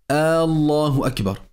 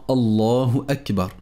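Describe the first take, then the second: First: The opening vowel of Allah is drawn out. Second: No sound in the phrase is drawn out. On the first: The speaker calls it wrong. "ne pas prolonger le son de la hamza au début du nom de Allah" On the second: The speaker calls it right. "bien prononcer la takbira"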